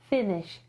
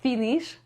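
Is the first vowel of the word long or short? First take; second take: short; long. First: The first vowel is short. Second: The first vowel is long. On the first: The speaker calls it right. "tylko to jest finish, krótkie e" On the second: The speaker calls it wrong. "to nie jest finish"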